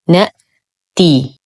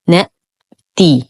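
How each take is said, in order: Both takes have the same delivery.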